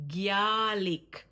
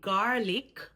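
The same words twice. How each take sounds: First: The g is followed by a y-glide. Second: The g is said without a y-glide. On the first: "we usually add a Y glide" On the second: "instead of saying garlic"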